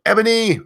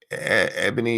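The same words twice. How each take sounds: First: Ebony called out high and loud; high excited call of the name. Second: Said in the usual way. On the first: Shown as a demonstration. Streamer calls out a chat name, high and loud. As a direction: shout Ebony up high, bright and sudden. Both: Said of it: "you didn't do it quite right there".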